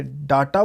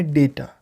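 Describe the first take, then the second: First: डाटा with a long "aa" first vowel; incorrect pronunciation. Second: डेटा with an "ay" first vowel; correct pronunciation. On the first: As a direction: say डाटा as "DAA-taa". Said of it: "तो वो incorrect होता था". (डाटा में पहला स्वर 'आ') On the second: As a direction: say डेटा as "DAY-ta". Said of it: "अभी आपको बोलना है डेटा". (डेटा में पहला स्वर 'ए') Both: Shown as a demonstration.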